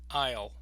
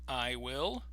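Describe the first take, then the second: First: It is contracted into one single syllable. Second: It is said as two separate syllables. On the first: "they will only have one" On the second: "two beats, two syllables"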